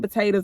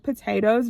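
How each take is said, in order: First: The word is said quickly with syllables reduced. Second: Every syllable of the word is clearly pronounced. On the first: The speaker calls it wrong. "I don't want him saying" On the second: The speaker calls it right. "saying it properly"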